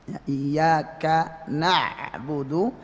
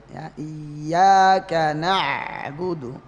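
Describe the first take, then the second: Both takes have the same delivery.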